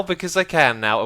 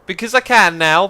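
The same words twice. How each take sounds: First: Said in the usual way. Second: Louder, higher brag; showing off the new power, louder; gleeful boast. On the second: Real, not acted. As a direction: crow about it.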